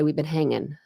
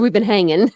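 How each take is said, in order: First: Said in the usual way. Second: "We've" punched louder with rising tune; emphatic repeat. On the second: Shown as a demonstration. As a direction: repeat "We've been hanging" louder, playful rise. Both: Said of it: "I said".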